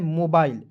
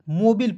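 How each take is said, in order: First: The second syllable has a long 'ai' sound. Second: The second syllable has a short 'i' sound. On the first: The speaker calls it right. "इसे क्या पढ़ना है मोबाइल" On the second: The speaker calls it wrong. "बहुत लोग इसे ... मोबिल पढ़ लेता है"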